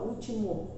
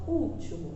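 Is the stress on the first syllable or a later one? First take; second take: later; first. First: The stress is not on the first syllable. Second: The stress is on the first syllable. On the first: The speaker calls it wrong. "A gente não fala último" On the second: The speaker calls it right. "a gente fala último. Então, o U"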